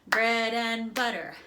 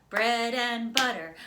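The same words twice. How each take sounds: The two takes are said the same way.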